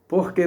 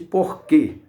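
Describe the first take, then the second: First: The 'que' is weak and unstressed. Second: The final 'que' is strongly stressed. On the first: "ele não é tônico como o outro" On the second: "Veja que esse porquê é com acento, veja a intensidade do som"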